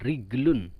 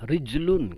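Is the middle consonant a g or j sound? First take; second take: g; j. First: The middle consonant is g. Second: The middle consonant is j. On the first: This is the Egyptian colloquial form. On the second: This is the standard form.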